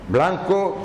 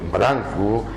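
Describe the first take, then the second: First: The second consonant is an L sound. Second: The second consonant is an R sound. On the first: This is how young people now say it. The speaker calls it wrong. "la dicen ya como en castellano" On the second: This is the traditional local pronunciation. The speaker calls it right. "generalmente se escribe en todas las palabras con R"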